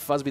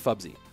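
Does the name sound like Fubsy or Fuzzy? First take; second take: Fuzzy; Fubsy. First: The middle sound is a plain z. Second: The middle sound is b followed by s. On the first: The speaker calls it wrong. "I've been saying Fuzzy this whole time" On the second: The speaker calls it right. "but it's Fubsy"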